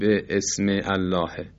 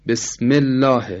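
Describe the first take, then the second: First: A glottal catch separates bi from ism. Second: The words run together without a glottal catch. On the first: The speaker calls it wrong. "نمیگیم به اسم الله" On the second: The speaker calls it right.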